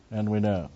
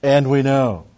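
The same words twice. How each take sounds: First: Said in the usual way. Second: And we know punched loud and high; emphatic. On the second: Shown as a demonstration. Preacher stressing And we know with force. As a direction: hit And we know hard. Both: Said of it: "very emphatic".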